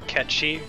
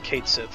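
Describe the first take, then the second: First: The name sounds like 'Ketchi', two short syllables. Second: The name sounds like 'Kate Sith', spelled-out style. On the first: The speaker calls it right. "the correct pronunciation of that guy's name is uh" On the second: The speaker calls it wrong. "I always pronounced it as Kate Sith when I was a kid"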